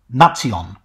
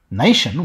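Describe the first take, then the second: First: The word is said with three syllables. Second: The word is said with two syllables. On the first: This is how it was said around 1200. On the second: This is the modern pronunciation.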